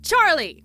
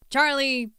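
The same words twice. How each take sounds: First: Loud, high call of Charlie across the pasture; yelling his name. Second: Charlie, said firmly, a bit raised; the boss calls in the employee; a touch of a stern boss firing him; mock stern boss. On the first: Retold or imitated. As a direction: shout Charlie! to a dog far away. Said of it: "she yelled". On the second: Boss scolding the dog.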